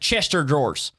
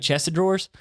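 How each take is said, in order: First: "Of" merges into "chest", sounding like "Chester". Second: The word "of" is said as a separate word. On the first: This is how the speaker heard it said growing up. The speaker calls it wrong. "It was like Chester drawers" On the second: This is the standard form of the phrase. The speaker calls it right. "those words aren't pronounced that way"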